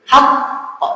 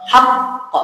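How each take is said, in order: The two takes are said the same way.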